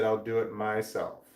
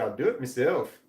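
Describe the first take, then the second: First: Said in the usual way. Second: Imitated Irish "meself"; Irish accent. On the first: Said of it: "reading the closed caption". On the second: Quoting a woman on TV, imitated Irish accent. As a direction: say "myself" as Irish "MEE-self". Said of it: "had a strong Irish accent".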